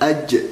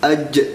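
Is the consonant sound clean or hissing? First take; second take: hissing; hissing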